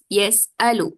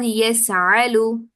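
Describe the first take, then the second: First: The middle consonant is a glottal stop. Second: The middle consonant is a throaty ain. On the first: The speaker calls it right. "this is yes alu" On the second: The speaker calls it wrong. "hamza will be replaced with a ain. This is also wrong"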